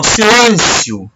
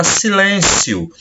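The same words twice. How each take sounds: First: "silêncio" high and drawn out, then falling; exclamatory intonation. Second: Said in the usual way. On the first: Shown as a demonstration. (entoação exclamativa, "silêncio" agudo e alongado) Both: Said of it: "Ó, entonação".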